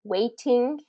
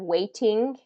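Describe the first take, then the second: First: The middle T is a clear T sound. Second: The same.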